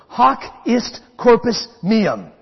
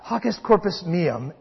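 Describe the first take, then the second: First: It is said at a normal pace. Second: It is said very fast.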